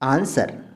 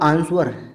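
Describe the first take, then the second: First: The w sound is silent in the word. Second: The w sound is pronounced in the word. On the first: The speaker calls it right. "आंसर होता है" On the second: The speaker calls it wrong. "अगर आप डब्लू को इसमें pronounce करोगे तो ये होगा आंसर"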